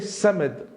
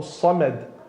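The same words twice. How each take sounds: First: The s is the light, plain sin sound. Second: The s is the heavy, emphatic sad sound. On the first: Manure. The speaker calls it wrong. "with the sin, it means manure" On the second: A name of God. The speaker calls it right. "with a sad. Samad is one of the names of Allah"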